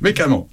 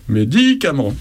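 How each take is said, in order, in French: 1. Le mot est raccourci, sans 'di'. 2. Le mot est prononcé en entier, avec 'di'. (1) "elle dit mécamant pour les médicaments" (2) "Donc réflexe des grands-parents"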